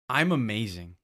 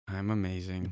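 First: It is shouted loudly. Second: It is said quietly, without force.

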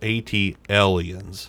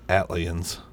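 First: It is split into two parts, 'at' and 'aliens'. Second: It is run together as one word, 'atlians'. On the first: The speaker calls it right. "I think it was AT Aliens" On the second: The speaker calls it wrong. "Instead of Atlians"

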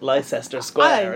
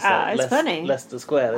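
First: It is said in an imitated American way. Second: It is said in a plain British way. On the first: The speaker calls it wrong. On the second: The speaker calls it right.

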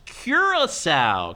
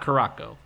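First: The word ends with a 'sow' sound. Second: The word ends with a 'ko' sound. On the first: The speaker calls it right. "It's Curaçao" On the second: The speaker calls it wrong. "It's not Caraco"

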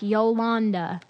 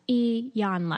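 First: The name begins with a Y sound. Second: The name begins with an E sound. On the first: The speaker calls it wrong. "I call her Yolanda, and that is not her name. it doesn't begin with the Y" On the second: The speaker calls it right. "pronunciation, E-Yan-la"

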